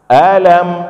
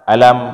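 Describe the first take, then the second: First: The word is said with a questioning intonation. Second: The word is said with a flat intonation. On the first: It asks whether something is not so. The speaker calls it right. "harus ada intonasi yang benar" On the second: It means pain. The speaker calls it wrong. "kalau kita baca datar"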